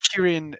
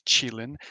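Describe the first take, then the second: First: It is said with Japanese pronunciation, starting with k. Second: It is said with Chinese pronunciation, starting with ch. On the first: "Kirin is the Japanese pronunciation" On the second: "The Chinese person- pronounce- pronunciation is Qilin"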